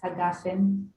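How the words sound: It has a hard g and an ah vowel. This is the modern Hebrew pronunciation. "wouldn't be pronounced hagafen in uh, Yemenite pronunciation"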